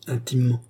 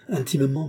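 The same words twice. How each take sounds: First: One-word echo, set apart by pauses; stung echo. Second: Pert, higher-pitched answer with a lift at the end; audacious. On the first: Rousseau repeating Chon's word back to her, stung echo. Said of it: "répéta ce dernier". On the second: Chon brazenly answering the philosopher about Gilbert, audacious. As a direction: answer boldly, voice raised in pitch. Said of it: "avec cette audace". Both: A narrator's reading.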